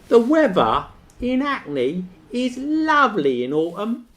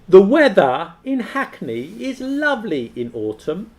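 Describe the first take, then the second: First: It is said in a Cockney accent. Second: It is said in a standard British accent.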